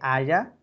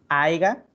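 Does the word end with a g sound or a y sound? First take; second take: Y sound; G sound. First: The word ends with a y sound. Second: The word ends with a g sound. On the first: The speaker calls it right. "cuando se dice haya" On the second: The speaker calls it wrong. "aiga, cuando se dice haya"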